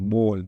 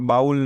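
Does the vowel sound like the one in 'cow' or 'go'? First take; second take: go; cow. First: The vowel is a plain o like in go. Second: The vowel glides like the one in cow. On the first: The speaker calls it right. "આ બોલ હે" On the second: The speaker calls it wrong. "આ બાઉલ નથી"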